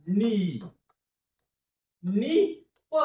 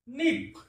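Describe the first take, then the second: First: नि- held, then नि-प joined; syllable by syllable. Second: निप said as one smooth word; blended word. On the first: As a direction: build निप from its syllables. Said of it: "एकत्र उच्चार". (निप अक्षर जोडून उच्चार) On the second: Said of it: "संपला शब्द". (निप सलग उच्चार) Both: Shown as a demonstration.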